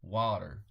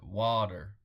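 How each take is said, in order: First: It is said in an American accent. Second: The same.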